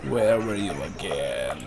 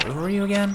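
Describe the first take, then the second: First: Low, slow, drawn-out musing; musing repeat. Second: High, quick puzzled question; puzzled asking. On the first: Player still searching the map, musing to himself. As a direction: stretch the question out low and slow. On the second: Player hunting the map for Franz Bauer, puzzled. Searching the map, asks twice. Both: Real, not acted.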